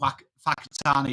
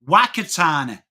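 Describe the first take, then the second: First: The name begins with an F sound. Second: The name begins with a W sound. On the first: This is how the locals say the name. The speaker calls it right. "why do you pronounce it fa?" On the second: This is how an outsider insists the name is said. The speaker calls it wrong. "W H is wa"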